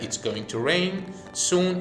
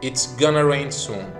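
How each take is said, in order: First: The words 'going to' are said in full. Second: The words 'going to' are reduced to 'gonna'.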